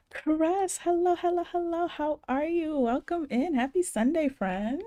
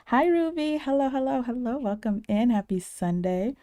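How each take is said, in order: First: High, bright sing-song hello; excited greeting. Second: High, loud cheery hello; excited greeting. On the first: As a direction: welcome a friend with a big smile. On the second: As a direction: beam a big welcome to a friend. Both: Real, not acted. Greeting viewer in chat.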